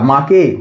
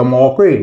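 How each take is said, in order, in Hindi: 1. स्वर लंबा 'aa' वाला है। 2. स्वर 'aw' वाला है। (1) "ना आ से प्रोनाउंस कर सकते हैं" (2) "ना औ से प्रोनाउंस कर सकते हैं"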